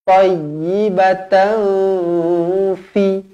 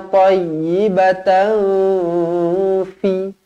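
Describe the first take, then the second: The two takes are said the same way.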